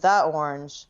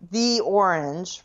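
First: 'The' is said with a short 'uh' vowel. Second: 'The' is said with a long 'ee' vowel. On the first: The speaker calls it wrong. "rather than the orange" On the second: The speaker calls it right. "Before a vowel, right? So the orange"

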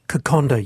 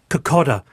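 First: The d has an n sound before it. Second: The d has no n sound before it. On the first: The speaker calls it right. "It should be kokonda" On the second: The speaker calls it wrong. "I hate hearing Fijian raw fish pronounced kokoda"

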